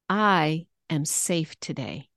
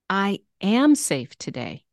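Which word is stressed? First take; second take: I; am. First: The stress is on the word I. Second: The stress is on the word am.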